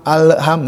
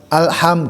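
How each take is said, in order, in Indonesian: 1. Bunyi L dilepas dengan sedikit memantul. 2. Bunyi L ditahan dengan halus sampai ke bunyi berikutnya. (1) "nah itu kan lepas" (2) "ditahan we nyaman alham gitu"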